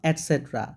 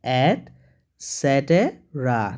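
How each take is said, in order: First: T and R run together with no vowel. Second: A vowel is heard between T and R. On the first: The speaker calls it wrong. "Not অ্যাটসেট্রা" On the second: The speaker calls it right. "উচ্চারণটা হবে অ্যাটসেটেরা"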